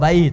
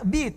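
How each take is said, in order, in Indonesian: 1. Vokalnya adalah diftong 'ai'. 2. Vokalnya adalah satu 'i' pendek. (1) "Bait dibaca benarnya, fasihnya" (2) "Bahasa dialeknya, slangnya"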